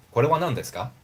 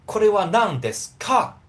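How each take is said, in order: First: "Kore wa nan desu ka?" with "ka" voiced halfway toward "ga", gentle and even; softened ka. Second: "Kore wa nan desu ka?" said higher and louder, with a hard, pushed "ka" on a rising end; hard ka, the wrong way. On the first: Teacher models the natural, gentle way to ask. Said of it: "I prefer to use nan desu ga". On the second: Teacher shows learners the pushy way to ask, with a hard "ka". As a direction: push the "ka" hard, like a demanding question. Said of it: "Don't do that". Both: Shown as a demonstration.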